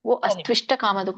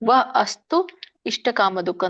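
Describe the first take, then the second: First: The words are joined, merged into one flow. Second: The words are split apart, said separately. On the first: "ಇಲ್ಲಂದ್ರೆ" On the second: "ಬಿಡಿಸ್ಲಿಕ್ಕಾಗ್ಲಿದ್ರೆ"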